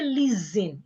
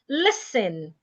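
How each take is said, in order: First: The middle consonant is a buzzing Z sound. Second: The middle consonant is a hissing S sound. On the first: The speaker calls it wrong. "Some people change the S to a Z" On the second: The speaker calls it right. "It is listen, as in snake"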